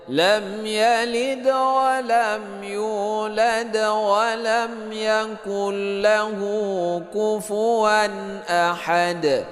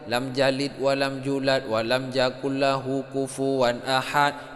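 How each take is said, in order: First: The words begin with a y sound. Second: The words begin with a j sound. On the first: The speaker calls it right. "Cara baca yang benar gimana?" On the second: The speaker calls it wrong. "ada yang baca ya lam jalid"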